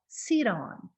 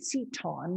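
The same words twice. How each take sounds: First: The t is a quick flap, like d. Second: The t is a clear, hard t sound. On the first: "I'm saying it in an American way with a flap sound" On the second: "I'm not saying seat on with a T, seat on, maybe in a British way"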